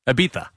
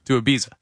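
First: Ibiza with a th sound for the z; Spanish-style pronunciation. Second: Said in the usual way. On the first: Shown as a demonstration. Producer repeating the destination, Ibiza lisped the Castilian way. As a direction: say Ibiza as "ee-BEE-tha".

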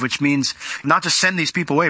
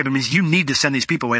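First: "not" hit hard, as the word that is being ruled out; stress on not. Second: "you" hit hard as the one who must act; stress on you. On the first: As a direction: lean on "not" in "which means not to send". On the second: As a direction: lean on "you" in "you need to send". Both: Shown as a demonstration. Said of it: "is in the imperative".

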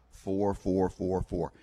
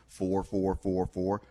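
The two takes are said the same way.

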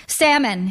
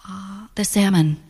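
First: Higher, decisive relay of the order; repeated out loud. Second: Drawn-out "uh", then a tentative choice; hesitant order. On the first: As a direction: pass it on to the waitress. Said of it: "repeat it out loud to the waitress". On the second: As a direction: give the order after a moment's hesitation. Hesitantly giving her dinner order. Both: A narrator's reading.

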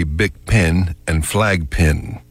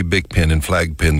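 First: "pen" with an eh, "pin" with an ih; northern distinction. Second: "pen" said just like "pin", with an ih; Texan merger. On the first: Showing how people up north say it, distinct pen and pin. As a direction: keep pen and pin clearly apart. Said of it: "Up north, they say". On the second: Showing how Texans say it, pen and pin rhymed. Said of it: "the same way, perfect rhyme". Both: Shown as a demonstration.

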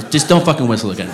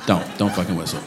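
First: Said in the usual way. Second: Softer, lower, menacing undertone; quiet warning. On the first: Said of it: "Sorry, that was a little aggressive". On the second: Shown as a demonstration. Comic to the whistler again: quiet menacing warning. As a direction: drop it to a quiet threat. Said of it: "that was a little aggressive".

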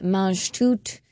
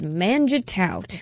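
First: Mange Tout said with a careful stab at French; "Mange Tout" as an uncertain French name; attempted French pronunciation. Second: "Manjitaut" drawn out slowly, rhyming its end with "out"; "Manjitaut", a slow, wrongly anglicized French name; anglicized mispronunciation. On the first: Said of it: "I say it wrong every time". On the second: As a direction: say "Manjitaut" as an English word, not French. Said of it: "pronounce it the way that I have been". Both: Shown as a demonstration.

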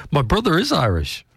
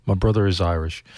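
First: Said high through a laugh. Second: Said in the usual way. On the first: Real, not acted. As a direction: laugh it out, pitched up. Laughing insistence about brother being Irish.

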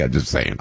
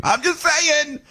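First: Said in the usual way. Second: Much higher, playful repeat of "I'm just saying"; sing-song repeat. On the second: Real, not acted. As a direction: toss off "I'm just saying" high and teasing.

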